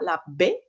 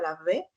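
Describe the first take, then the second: First: The b is a full stop closure. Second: The b is a soft fricative sound. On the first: "esta B oclusiva" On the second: "la B fricativa"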